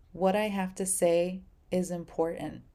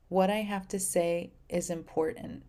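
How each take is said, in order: Both takes have the same delivery.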